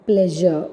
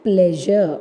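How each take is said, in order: Both takes have the same delivery.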